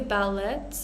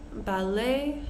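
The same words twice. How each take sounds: First: The final t sound is pronounced. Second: The final t sound is left silent. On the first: The speaker calls it wrong. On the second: The speaker calls it right.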